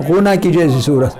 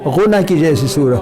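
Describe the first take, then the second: No difference in how they are said.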